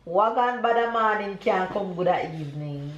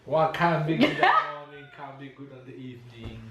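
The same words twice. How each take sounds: First: Full Jamaican proverb, patois rhythm. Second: American attempt at patois. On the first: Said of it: "I'm gonna say everything all at once". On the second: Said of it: "your mom is just the expression". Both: Shown as a demonstration.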